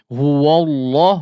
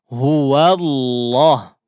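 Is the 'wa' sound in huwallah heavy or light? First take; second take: heavy; light. First: The wa sound is heavy, lips pushed forward. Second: The wa sound is light, lips not rounded. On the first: The speaker calls it wrong. "jadi terlalu menebal ya" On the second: The speaker calls it right. "tetap ditipiskan ya"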